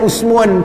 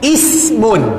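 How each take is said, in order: First: The first vowel sounds like 'u'. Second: The first vowel sounds like 'i'. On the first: The speaker calls it wrong. "Tapi tak boleh sebut dengan usmun" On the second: The speaker calls it right. "kena sebut dengan ismun"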